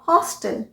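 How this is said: It is said with an American pronunciation.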